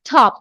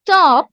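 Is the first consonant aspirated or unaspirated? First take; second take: aspirated; unaspirated. First: The t is said with a puff of air. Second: The t is said without a puff of air. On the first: The speaker calls it right. "সবগুলো টকে ঠ বলবো" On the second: The speaker calls it wrong. "যতগুলো ট বলতাম আমরা এতদিন"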